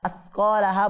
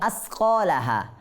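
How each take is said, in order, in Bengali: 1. ব্যঞ্জনটি একটি হিসহিসে 's' ধ্বনি। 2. ব্যঞ্জনটি একটি হিসহিসে 's' ধ্বনি।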